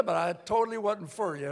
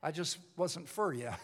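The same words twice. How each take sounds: First: Totally pushed out louder with a falling finish; stress on totally. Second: Said in the usual way. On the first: Shown as a demonstration. Preacher restating his line, punching totally. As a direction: lean hard on the word totally.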